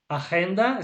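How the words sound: The word is pronounced the Spanish way.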